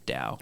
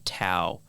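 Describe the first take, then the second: First: The word begins with a D sound. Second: The word begins with a T sound. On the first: The speaker calls it right. "it's actually pronounced with a D. It's Tao" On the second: The speaker calls it wrong. "a lot of people mistakenly say like Tao"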